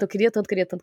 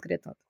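First: Said in the usual way. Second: Queria tanto fades almost to nothing; fading dejection. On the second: Retold or imitated. Telling friends how much she wanted the job, fading out. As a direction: let "queria tanto" die away, very soft. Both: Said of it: "Eu saí desmoralizada".

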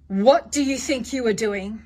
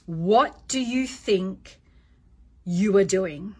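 First: Firm, slightly louder challenge; measured parental telling-off; stern parent. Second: Slow, measured, firm challenge; lowered stern tone. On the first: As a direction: confront the child without losing your cool. Parent demonstrating a confrontation. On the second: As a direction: pause before YOU ARE DOING, dropping the pitch. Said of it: "lower the tone of your voice". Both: Shown as a demonstration.

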